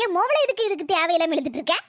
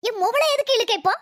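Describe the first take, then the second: First: மொவளை stressed, question rising at the end; rising complaint. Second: Protect her daughter, hitting மொவளை hard; indignant demand. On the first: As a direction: press the grievance, leaning on மொவளை. Mother-in-law repeats the demand. (மொவளை என்பதை அழுத்தி ஏறும் தொனியில் குறை கூறுகிறாள்) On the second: Mother-in-law defends her daughter angrily. (மொவளை என்பதை அழுத்தி இறங்கும் தொனியில் கோபமாக கேட்கிறாள்) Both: Acted.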